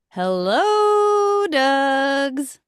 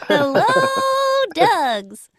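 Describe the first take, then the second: First: It is said in her normal voice. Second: It is said in a tiny cartoon anime voice.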